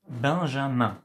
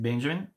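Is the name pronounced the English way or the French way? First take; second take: French; English. First: The name has a French nasal vowel. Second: The name has an English pronunciation. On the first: "together in French make the sound un" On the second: "In English, we pronounce it Benjamin"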